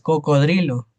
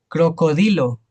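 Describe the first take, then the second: First: The r sound comes right after the d. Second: The r sound comes right after the first c. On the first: The speaker calls it right. "y es cocodrilo" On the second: The speaker calls it wrong. "se saben decir crocodilo"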